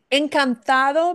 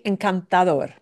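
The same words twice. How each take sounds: First: Encantado with the beat on "ta"; encantado, higher pitch on the stressed "ta". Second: Encantador with the beat on the final "dor"; encantador, landing firmly on "dor"; stress on DOR. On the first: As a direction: punch the next-to-last syllable of encantado. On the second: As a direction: punch the last syllable of encantador. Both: Shown as a demonstration. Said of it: "gets a punch on door".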